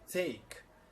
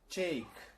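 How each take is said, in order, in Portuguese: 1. A palavra começa com um t simples. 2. A palavra começa com um som próximo de ch. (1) "eles falam take" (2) "mais com um C H no lugar do T"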